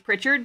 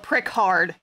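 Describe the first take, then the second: First: It rhymes with Richard, with a ch sound. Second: It is split into 'prick' and 'hard'. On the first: The speaker calls it right. "It's like Richard, but with a P in front of it" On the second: The speaker calls it wrong. "Or prick hard, as like one dude called me once"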